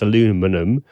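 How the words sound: It is said with the American pronunciation.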